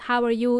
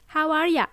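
First: It is said the neutral way, with full "you". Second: It is said the Australian way, with "ya".

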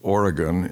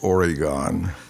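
First: The word is said the local way. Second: The word is said the outsider way. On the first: This is the pronunciation adopted after moving there. The speaker calls it right. "I learned how to say Oregon" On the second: This is the pronunciation used before moving there. The speaker calls it wrong. "instead of Oregon"

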